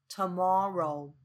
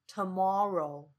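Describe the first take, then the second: The two takes are said the same way.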